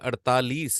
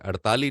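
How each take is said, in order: First: The word ends with a clear final s. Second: The word ends without the final s. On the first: The speaker calls it right. "ये अड़तालीस होता है" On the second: The speaker calls it wrong. "अड़ताली नहीं होता"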